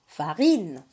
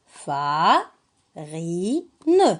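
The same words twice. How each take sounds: First: Said in the usual way. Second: FA, RI, NE with clear pauses between; syllable by syllable. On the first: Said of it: "on le lit ensemble". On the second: Shown as a demonstration. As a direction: read "fa... ri... ne" as separate syllables. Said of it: "La première syllabe".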